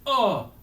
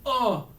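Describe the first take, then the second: The two takes are said the same way.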